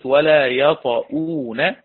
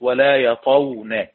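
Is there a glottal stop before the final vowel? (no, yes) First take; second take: yes; no. First: A glottal stop is heard before the final vowel. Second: No glottal stop is heard before the final vowel.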